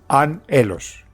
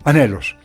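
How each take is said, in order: First: The word is said with its parts separated. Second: The word is said smoothly in one flow. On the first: "se podría leer anhelos" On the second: "para leerla de corrido"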